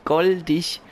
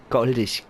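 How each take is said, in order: First: Higher, a bit brighter coo on "goldig"; delighted coo of "goldig", pitched up. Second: Said in the usual way. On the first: Real, not acted. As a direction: coo "goldig" at the cute little animal. Cooing at a cute lemur.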